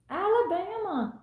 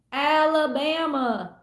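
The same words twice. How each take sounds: First: Said in the usual way. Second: Put-on slow, drawn-out southern Forrest Gump accent. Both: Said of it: "I hear Forrest Gump saying it".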